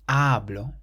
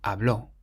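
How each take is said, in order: First: The stress is on the first syllable. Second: The stress is on the last syllable. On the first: I speak. "you stress the first syllable" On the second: He spoke. "has an accent on the O, so we say habló"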